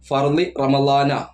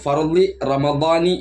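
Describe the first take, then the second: First: The last word ends with an a vowel. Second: The last word ends with an i vowel. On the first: The speaker calls it wrong. "ഒരിക്കലും" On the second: The speaker calls it right. "ഫർളി റമദാനി എന്നാണ് പറയേണ്ടത്"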